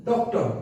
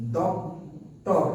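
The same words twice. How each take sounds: First: Said in the usual way. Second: "doctor" in two slow beats, ডক, টর; long gap between the halves of "doctor"; split into syllables. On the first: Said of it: "উচ্চারণ করো". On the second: Shown as a demonstration. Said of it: "কবার চাপ দিল".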